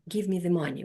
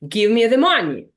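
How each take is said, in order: First: It sounds like a softer, less categorical request. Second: It sounds like a firm, categorical command. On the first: The speaker is asking the listener for help. "if it's a request, we will say, ... We will not be that categoric" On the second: The speaker is ordering the listener. "The order, so will end with low rising intonation"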